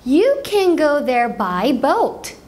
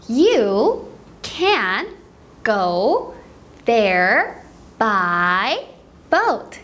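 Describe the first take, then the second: First: It is said fast. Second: It is said slowly.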